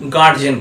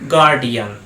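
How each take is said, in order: First: The middle has a 'j' sound, two syllables. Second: The middle has a 'd' sound, three syllables. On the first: The speaker calls it wrong. "সাধারণত আমরা ছোটবেলা থেকে এই ওয়ার্ডটার উচ্চারণ করে আসছি গার্জেন বলি" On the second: The speaker calls it right. "কিন্তু এই ওয়ার্ডটার ঠিক উচ্চারণ হয় গার্ডিয়ান"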